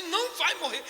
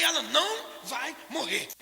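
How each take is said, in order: First: A loud, higher, defiant denial; quick, firm "não vai morrer" said with a short laugh; firm insistence. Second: Slow, deliberate, higher "Ela não vai morrer"; drawn-out, unshakable "Ela não vai morrer"; slow emphatic insistence. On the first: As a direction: refuse to accept it. Insisting daughter won't die. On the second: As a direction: lean on every word and refuse to give in. Repeats the denial more emphatically. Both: Retold or imitated.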